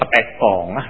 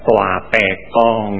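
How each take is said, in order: First: It begins with the syllable pe. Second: It begins with the syllable toa. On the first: The speaker calls it wrong. "Ada lagi yang baca Petekong, salah lagi" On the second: The speaker calls it right. "mestinya dibaca Toa Pekong ya"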